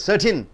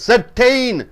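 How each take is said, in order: First: The last syllable is a short 'tin'. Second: The last syllable has a full 'tain' vowel. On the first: The speaker calls it right. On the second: The speaker calls it wrong.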